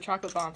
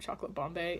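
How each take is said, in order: First: The last word is said with one syllable. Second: The last word is said with two syllables. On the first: The speaker calls it right. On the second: The speaker calls it wrong.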